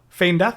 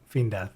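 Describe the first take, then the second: First: The first word is said like 'fayn'. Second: The first word is said like 'feend'. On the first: "I won't now" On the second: "I sometimes say"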